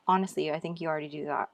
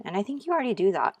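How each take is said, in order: First: Said in the usual way. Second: Quick, bright, raised aside; excited. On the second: Real, not acted. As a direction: blurt it out eagerly, fast.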